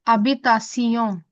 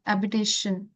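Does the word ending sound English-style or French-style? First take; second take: French-style; English-style. First: The ending is said like 'see-on'. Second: The ending is said like 'shun'. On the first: The speaker calls it right. "habitation not habitation ये sound difference है from English to French" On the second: The speaker calls it wrong. "in english it's yes shun"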